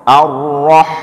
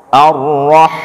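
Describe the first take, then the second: The two takes are said the same way.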